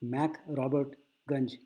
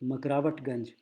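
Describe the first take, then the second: First: It is said as separate English-style parts. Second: It is said as one blended local word. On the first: This is the original form of the name. "असल में इसका नाम है" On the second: This is how the local people say the name. "सब रिक्शे वाले बोलते थे"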